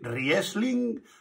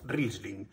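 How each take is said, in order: First: It is read out as it is spelled. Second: It is said with its native pronunciation. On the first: The speaker calls it wrong. "Se escribe Riesling" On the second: The speaker calls it right. "pero se pronuncia Riesling"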